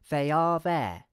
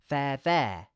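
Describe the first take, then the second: First: The full words are linked together smoothly. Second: They are is shortened into one syllable. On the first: "we could connect the words" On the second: "we can pronounce the phrase using a contraction"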